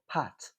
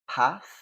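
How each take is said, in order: First: It ends with a t sound. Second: It ends with a th sound.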